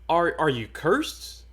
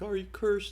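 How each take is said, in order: First: It is said in an accusing tone. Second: It is said in a calm, detached tone.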